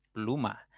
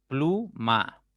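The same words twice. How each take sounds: First: Said in the usual way. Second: "Pluma" split into plu - ma; syllable by syllable. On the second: Shown as a demonstration. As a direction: say "Pluma" as two separate beats, plu, ma. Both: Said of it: "ya tienen dos sílabas".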